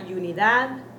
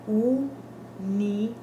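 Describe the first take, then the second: First: The word begins with a Y sound. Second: The word begins with a plain U vowel. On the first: The speaker calls it wrong. "Not unidad, never with a Y in front of it" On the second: The speaker calls it right. "but unidad. That is the proper pronunciation"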